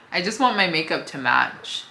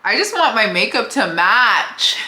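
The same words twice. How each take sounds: First: Said in the usual way. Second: High, loud comic lament; exaggerated plea, played for laughs; mock-sad outburst. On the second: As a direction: wail it in mock despair, half joking. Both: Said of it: "I was a little sad".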